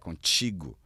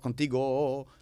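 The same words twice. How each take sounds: First: It ends in "tchi-gu", a Brazilian Portuguese sound. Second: It ends in a plain "ti-go", a Spanish sound. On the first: The speaker calls it right. "tem que botar um T C H I... um U no final" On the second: The speaker calls it wrong. "isso tá espanhol"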